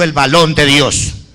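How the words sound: The r is pronounced as an l. The speaker calls it wrong. "ellos no pronuncian la R, sino la L"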